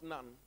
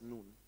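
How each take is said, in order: First: The name is said like the English word nun. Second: The name is said with its Hebrew pronunciation. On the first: This is the English word for a religious woman. The speaker calls it wrong. "It's not Nun" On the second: This is the name of Joshua's father. The speaker calls it right. "In Hebrew, that's Nun"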